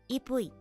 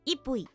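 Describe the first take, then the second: First: The word is said softly, with little force. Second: The first half is said with heavy emphasis. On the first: "That's too soft" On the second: "Did I put too much emphasis on on the on the first half?"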